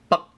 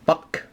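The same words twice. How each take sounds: First: The word stops in the throat, no K. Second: The final K sound is audibly released. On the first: The speaker calls it right. "you stop at right at your throat" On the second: The speaker calls it wrong. "It's not buck. There's no K"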